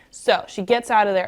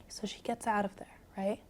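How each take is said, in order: First: Said in the usual way. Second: Whispered bedtime storytelling; hushed whisper. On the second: Real, not acted. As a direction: whisper it so a drowsy listener drifts off. Repeated softly as listener grows sleepy.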